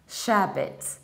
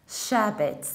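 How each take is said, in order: First: The ending is reduced and ends with a t. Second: The same.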